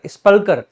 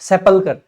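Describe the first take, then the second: First: The word begins with 'sp', no vowel between. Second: The word begins with 'sep', a vowel after s. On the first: The speaker calls it wrong. "स्पल्कर नहीं" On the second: The speaker calls it right. "सेपल्कर इसका correct correct pronunciation होगा"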